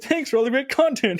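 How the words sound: It is read in a Swedish Chef impression.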